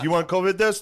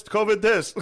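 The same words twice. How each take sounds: First: Loud, high pushy kiosk pitch; mall kiosk seller. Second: High pushy repeated sales call; mall kiosk seller. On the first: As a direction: call out like a mall kiosk guy. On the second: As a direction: hawk it again like a kiosk seller. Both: Retold or imitated. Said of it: "they yell at you".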